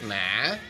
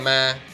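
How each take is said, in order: First: It is said with the hỏi tone. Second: It is said with a level tone. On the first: "Hỏi" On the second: "without a tone"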